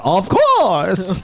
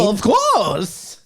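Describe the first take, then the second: First: Lilting Bane voice; Bane's sing-song "Of course"; Bane impression. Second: High, lilting Bane voice; Bane impression. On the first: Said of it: "and he's like". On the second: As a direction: do Bane's odd sing-song. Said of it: "that was my Bane impression".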